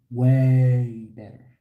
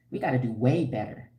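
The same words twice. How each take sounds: First: "Way better" dragged out slow and loud; stress on way better. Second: Said in the usual way. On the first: Real, not acted. Vlogger drives her point home to women in chat, slow and loud. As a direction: lean hard on "Way better", stretching each word.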